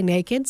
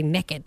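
First: Put-on naked said NAY-kid; naked with a long a, NAY-kid; naked as NAY-kid, the plain way; Southern naked. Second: Put-on naked said NEK-kid; naked with a short e, NEK-id; naked as NEK-id, Southern style; Southern nekkid. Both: Shown as a demonstration. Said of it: "we're Southern. Sometimes you say naked".

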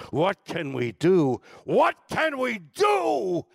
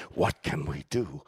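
First: Building from slow and loud to a high, slow shout; rising cry. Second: Said in the usual way. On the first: Retold or imitated. Recalling the Kennedy Center song, building to a shout. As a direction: swell it into a rallying cry. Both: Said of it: "are the lyrics".

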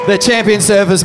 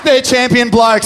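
First: Louder, with champion hit hard; emotional praise. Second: Higher, louder and slower, champion stretched; emotional praise. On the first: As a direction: lean on champion, voice swelling. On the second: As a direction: let it swell slowly. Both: Real, not acted. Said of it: "I get emotional thinking about it".

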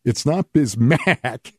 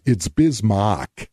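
First: "Bismack" ending like mack, drawn out; wrong pronunciation. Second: Slow "Bismack" ending like mock; correct pronunciation. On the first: Imagined staffer correcting Tom, rejected "Bismack" with a long mack. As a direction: stretch the short a in "Bismack", as in back. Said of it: "it's Bismack". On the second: Imagined staffer correcting Tom, slow "Bismack" said as Biz-mock. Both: Shown as a demonstration.

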